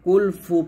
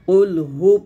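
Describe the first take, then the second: First: The second word starts with an f sound. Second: The second word starts with an h sound. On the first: The speaker calls it wrong. "কুল ফু বলবেন না" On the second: The speaker calls it right. "কুল হু পড়তে হবে"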